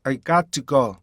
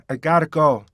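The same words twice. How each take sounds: First: Full T in "got to"; "got to" carefully kept apart; precise "got to go". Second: Quick tapped T in "gotta"; "got to" squeezed into gotta; brisk, joined "gotta", got punched; linked "gotta go". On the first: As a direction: start with a distinct T in "got to". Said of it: "이거부터 하셔야 돼요". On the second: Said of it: "나중에는". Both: Shown as a demonstration.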